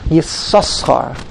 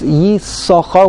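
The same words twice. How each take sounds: First: Two s sounds are pronounced. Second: Only one s sound is pronounced. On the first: "they pronounce both sins" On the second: "We only pronounce the first sin"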